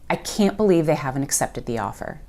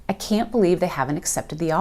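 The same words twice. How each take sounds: First: The negatives are squished into contractions. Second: The negatives are squished into contractions.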